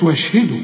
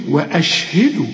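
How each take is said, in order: First: واشهدوا run together without the glottal stop; dropped hamza. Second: وأشهدوا with a distinct glottal stop after و; clear hamza. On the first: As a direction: mistaken reading gliding from و straight into ش in واشهدوا. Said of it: "ما تقولش". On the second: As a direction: cut cleanly on the أ in وأشهدوا. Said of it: "همزة قطع دي". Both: Shown as a demonstration.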